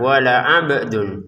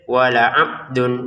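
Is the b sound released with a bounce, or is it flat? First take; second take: bounce; flat. First: The b sound ends with an echoing bounce. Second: The b sound ends flat with no bounce. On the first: The speaker calls it right. "Kita harus pantulkan wala 'abdun" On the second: The speaker calls it wrong. "Jangan sampai wala 'abdun, enggak ada pantulannya, salah"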